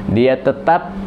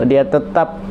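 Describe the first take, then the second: The two takes are said the same way.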